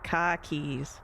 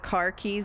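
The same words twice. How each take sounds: First: It is said in a Boston accent. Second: It is said in a general American accent.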